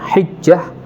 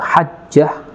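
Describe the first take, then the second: First: The first vowel is a front 'i'. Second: The first vowel is an open 'a'. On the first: "haknya di kasrah" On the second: "haknya di fathah"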